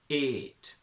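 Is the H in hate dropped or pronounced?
dropped. The H sound is dropped.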